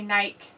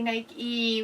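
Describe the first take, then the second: First: The word ends without an ee sound. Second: The word ends with an ee sound. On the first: This is the form used in the UK. "we say Nike. You forget that there's an E" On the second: This is the form not used in the UK. "in the U K we don't say Nike"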